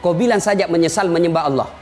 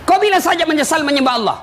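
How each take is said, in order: First: Low, casual coaxing devil; tempting devil. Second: High, forceful repetition; emphatic demand. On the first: Devil bargains with a thirsty dying man, coaxing. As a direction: make the condition sound easy. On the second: Devil demands the dying man renounce God, insistent. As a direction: drive the devil's condition home. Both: Acted.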